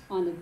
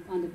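No difference in how they are said.

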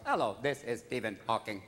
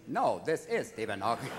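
First: Low monotone speech-synthesizer voice; Stephen Hawking. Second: Low computer voice, insisting on IS; Stephen Hawking. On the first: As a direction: answer the phone like a talking computer. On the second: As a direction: correct the caller in a synthesizer voice. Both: Acted. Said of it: "I once called Stephen Hawking's house".

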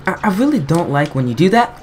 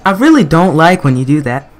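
First: Said in the usual way. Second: Much louder, fed up with the game; louder exasperated repeat. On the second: Real, not acted. Gamer yelling at a boss fight, louder frustrated repeat. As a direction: push it out loud, losing patience.

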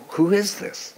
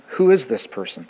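First: Hushed puzzled question. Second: Said in the usual way. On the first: Retold or imitated. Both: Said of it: "they conclude".

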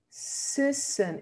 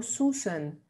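First: 'Sussen' with a short eh-like vowel; correct short u. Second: 'Susan' said as 'soosen', with oo; 'Susan' with a back oo in the first syllable; wrong vowel demo. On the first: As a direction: model 'Sussen' sounding close to 'sessen'. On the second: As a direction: show the mistake: 'Susan' with a Spanish u. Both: Shown as a demonstration. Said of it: "Sussen y no Susan".

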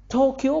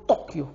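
First: "طوكيو" with a light, plain T; foreign-style "طوكيو", soft T. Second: "طوكيو" with a heavy ط; Arabized "طوكيو", dark emphatic T; emphatic Arabic T. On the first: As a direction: say "طوكيو" with ت instead of ط. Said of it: "طوكيو بالتاء". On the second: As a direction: thicken the first T of "طوكيو". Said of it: "طوكيو بالطاء". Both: Shown as a demonstration.

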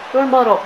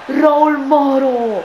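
First: Said in the usual way. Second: Long drawn-out excited call; breathless italian goal commentary. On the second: Real, not acted. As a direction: stretch the name out, thrilled. Goal chance, elongated call.

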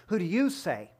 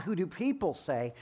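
First: You hit firmly; stress on you. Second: People stressed, said softer. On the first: Preacher contrasting the two questions, you stressed. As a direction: press on the word you. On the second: Preacher contrasting the two questions, people stressed. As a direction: lean on the word people. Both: Shown as a demonstration.

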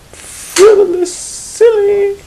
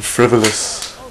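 First: Very high, loud squeak; high squeaky voice. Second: Said in the usual way. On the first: Shown as a demonstration.

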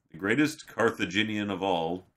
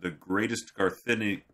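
First: "Carthaginian" said in full, car-thuh-JIN-ian; corrected pronunciation. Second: "Carthini-" tripped over and broken off; stumbled pronunciation. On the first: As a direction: deliver "Carthaginian" smoothly with every syllable. Corrected retake after sounding out. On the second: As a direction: stumble on "Carthini-", losing the middle syllables. Stumbles on an unfamiliar word. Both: Real, not acted.

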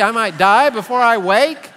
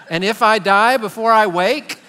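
First: "die" lifted louder in a mock-frightened child voice; a four-year-old realising "die" is possible; alarmed child. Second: Said in the usual way. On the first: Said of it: "the four-year-old is like". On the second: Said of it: "Be careful with that next line".

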